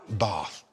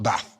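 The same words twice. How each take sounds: First: It is said in a posh accent. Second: It is said in a Birmingham accent. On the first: The speaker calls it right. "taught to say bath" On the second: The speaker calls it wrong. "and not bath"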